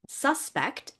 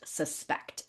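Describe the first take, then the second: First: It is stressed with the noun stress pattern. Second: It is stressed with the verb stress pattern. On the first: It names a person thought to have committed a crime. "The first one, suspect, is the noun form of the word" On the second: It means believing that somebody did something. "The verb form is pronounced suspect"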